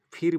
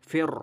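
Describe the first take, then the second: First: ফির as a light "phir"; wrong thin r. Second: ফের with a thick, rolled r; full heavy r. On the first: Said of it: "ফির বলবো না". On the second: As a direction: say ফের heavy, vowel opened toward e. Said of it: "এই জন্য রাকে পুর করব". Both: Shown as a demonstration.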